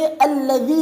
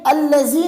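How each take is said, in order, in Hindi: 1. बीच का व्यंजन सघोष 'th' जैसा बोला जाता है। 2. बीच का व्यंजन 'z' जैसा बोला जाता है। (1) "अपनी ज़ुबान को जो है दांतों के नीचे लाए" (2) "ये अल्लज़ी नहीं है"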